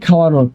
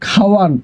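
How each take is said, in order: First: The word ends with an added o vowel. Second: The word ends on a bare n sound. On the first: "আন প্রত্যয় থাকলে অয়ের উচ্চারণ ও হয়ে যায়" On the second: "খাওয়ান হবে কি?"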